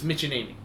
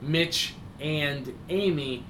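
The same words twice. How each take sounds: First: The three words run together as one. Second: The three words are said separately. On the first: The couple is treated as one inseparable unit. The speaker calls it right. "It's all one word altogether" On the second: They are two separate people. The speaker calls it wrong. "It's not Mitch and Amy"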